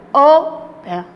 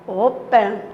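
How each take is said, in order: First: "open" with a loud first syllable, falling away after; stress on first syllable. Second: Said in the usual way. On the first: Shown as a demonstration. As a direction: punch the start of "open". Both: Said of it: "a sílaba tônica está no início".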